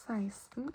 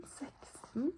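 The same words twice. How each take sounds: First: Seksten said as "saisten", with an "ai" vowel; spoken way. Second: Seksten said as written, plain "seks" vowel; spelled way. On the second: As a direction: read seksten letter by letter, as spelled. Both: Shown as a demonstration. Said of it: "but you say seksten".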